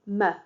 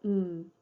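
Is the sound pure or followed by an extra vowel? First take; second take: extra vowel; pure. First: The sound carries an added heavy vowel after it. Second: The sound is short with no added vowel. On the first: The speaker calls it wrong. "or m for m" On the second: The speaker calls it right. "We call these pure sounds"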